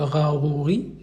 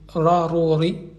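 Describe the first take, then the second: First: The R is throaty, made at the back. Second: The R is rolled with the tongue tip. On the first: The speaker calls it wrong. "ce n'est pas le R français, hein, c'est pas le rarouri" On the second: The speaker calls it right. "mais rarori. Donc c'est le R roulé"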